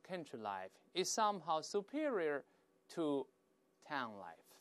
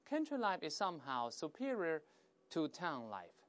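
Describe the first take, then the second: First: The sentence is spoken at a slower pace. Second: The sentence is spoken at a faster pace.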